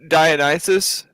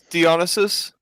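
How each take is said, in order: First: The name is said with English-style pronunciation. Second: The name is said with Greek-style pronunciation. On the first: The speaker calls it wrong. "it's not Dionysus" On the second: The speaker calls it right. "it's Dionysus"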